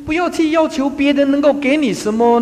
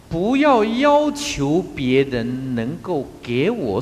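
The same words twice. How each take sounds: First: 不要去要求 said higher and louder, stress on 要; raised, emphatic restatement. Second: 不要要求 said slowly, stress on 要; slow, measured quote. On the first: Real, not acted. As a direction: hammer the point home loudly. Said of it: "因为". (提高音量强调“不要去要求”) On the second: Shown as a demonstration. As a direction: lay out the maxim slowly. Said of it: "有讲过一句话". (缓慢地一字一字说“不要要求别人能够给我”)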